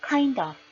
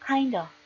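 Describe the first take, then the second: No difference in how they are said.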